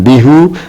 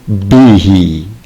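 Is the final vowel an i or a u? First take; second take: u; i. First: The final vowel is u. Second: The final vowel is i. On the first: The speaker calls it wrong. "bukan bihu" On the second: The speaker calls it right. "menjadi bihi"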